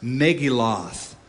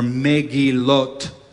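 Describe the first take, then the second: First: It is said with an American pronunciation. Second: It is said with a Hebrew pronunciation. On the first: "I'm pronouncing it, Americanizing it on purpose" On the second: "is the Hebrew pronunciation"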